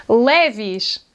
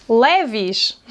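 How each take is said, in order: The two takes are said the same way.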